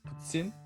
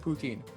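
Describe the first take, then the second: First: The t is said as a ts sound. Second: The t is said as a plain t. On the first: The speaker calls it right. "just make the tss sound" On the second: The speaker calls it wrong. "You might pronounce it poutine"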